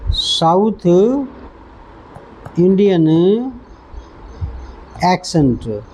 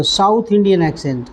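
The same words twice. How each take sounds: First: Each word of south Indian accent said slowly and separately; teacher spacing out south Indian accent for students; slow dictation. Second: Said in the usual way. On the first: Shown as a demonstration. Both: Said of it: "क्या?".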